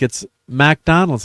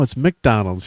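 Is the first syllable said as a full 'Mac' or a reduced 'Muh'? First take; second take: Mac; Muh. First: The first syllable is a full 'Mac' sound. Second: The first syllable is a reduced 'Muh' sound. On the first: This is how it is said over there. The speaker calls it wrong. "it's Mac because they, I don't know, they they say Mac over there" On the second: This is the American way of saying it. The speaker calls it right. "Who's the American here?"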